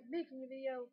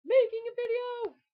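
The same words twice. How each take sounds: First: Said in the usual way. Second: High, loud outburst; exasperated exclamation. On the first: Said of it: "But I meant to say". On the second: Real, not acted. Vlogger on yet another take of the video, loud exasperated cry. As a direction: burst out in loud frustration.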